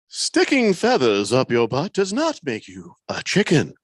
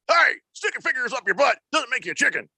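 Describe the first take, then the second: First: It is said calmly, like a wise philosopher. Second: It is said in an angry, aggressive tone.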